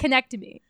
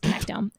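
First: The word ends with an extra 'ee' sound. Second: The word ends with an 'ohm' sound. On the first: The speaker calls it wrong. "That's not how you say it" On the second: The speaker calls it right. "So it's connectome"

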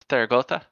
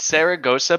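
First: The name is said with TH sounds. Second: The name is said with S sounds. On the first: "with the pronunciation of Spanish, the S's are like sort of TH's" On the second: "It's Saragossa"

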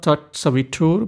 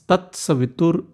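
First: The 'tu' syllable is held long. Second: The 'tu' syllable is kept short. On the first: The speaker calls it wrong. "this is not Tat Savitur" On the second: The speaker calls it right. "The tu is short"

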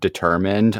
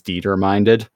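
First: The word is said with its standard pronunciation. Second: The word is said with a misread, spelled-out pronunciation. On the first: The speaker calls it right. "when I'd see the word determined" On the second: The speaker calls it wrong. "I used to pronounce it in my head as determined"

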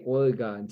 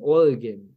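First: The last syllable sounds like 'gone'. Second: The last syllable sounds like 'gun'. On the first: This is how people on the East Coast say it. The speaker calls it wrong. "People on the East Coast say Oregon" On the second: This is how people from the state say it. The speaker calls it right.

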